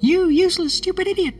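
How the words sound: A fast, squeaky, high cartoon voice. "make it sound a bit like Mickey Mouse and speed it up"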